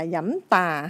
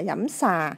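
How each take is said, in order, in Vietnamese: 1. Từ thứ hai bắt đầu bằng âm t không bật hơi. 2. Từ thứ hai bắt đầu bằng âm s. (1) "hay là dẫm tà" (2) "chứ không phải là dẫm xà"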